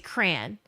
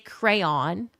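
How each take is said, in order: First: It is said the way some northerners say it. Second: It has two syllables, second rhyming with dawn.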